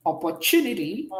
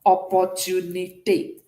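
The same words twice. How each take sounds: First: "opportunity" said the English way, ending in ee; English pronunciation. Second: "Opportunité" in French, ending in a sharp é; French pronunciation. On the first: Teacher moves from English to French, English pronunciation. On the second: Teacher turns the English word into French, French pronunciation. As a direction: say "Opportunité" syllable by syllable with a final eh. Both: Shown as a demonstration. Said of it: "in English to what?".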